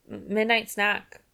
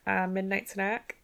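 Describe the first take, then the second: First: Stammered excuse. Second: Slow, unsure rising 'Uh, midnight snack?'; mock awkward midnight-snack question; sheepish question. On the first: A narrator's reading. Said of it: "I said". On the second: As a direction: play it like a caught-out excuse. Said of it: "And she's like".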